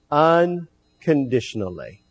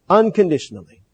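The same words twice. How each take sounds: First: Unconditionally stretched slow, every syllable weighed; unconditionally drawn out slowly for emphasis. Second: Said in the usual way. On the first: Shown as a demonstration. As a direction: lean on unconditionally and let it land slowly.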